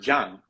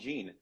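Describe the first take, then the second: First: The name has a Spanish pronunciation. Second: The name has an American English pronunciation. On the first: "In Spanish, you don't pronounce it the way that you pronounce it in France" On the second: "the way that Americans pronounce it"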